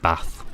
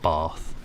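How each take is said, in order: First: The vowel is a short, flat northern 'a'. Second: The vowel is a long southern 'ah'. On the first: This is how the speaker himself talks. "I'm northern, so I don't say path... I say bath" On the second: This is how southern English people talk. "not bath"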